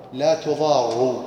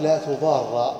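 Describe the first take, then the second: First: "لا تضار" read as tuḍārru, the final ra with damma. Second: "لا تضار" read as tuḍārra, the final ra with fatha. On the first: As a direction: say "تضار" ending in a rounded -ru. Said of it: "وفي قراءة". ("لا تضارُّ" بضم الراء) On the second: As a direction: say "تضار" ending in an open -ra. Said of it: "قراءة". ("لا تضارَّ" بفتح الراء) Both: Shown as a demonstration.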